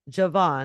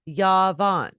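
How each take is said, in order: First: The name starts with a J sound. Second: The name starts with a Y sound. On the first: The speaker calls it wrong. "I'm probably mispronouncing it" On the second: The speaker calls it right. "It is pronounced Yavan"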